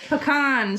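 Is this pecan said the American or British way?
American. It is said with the American pronunciation.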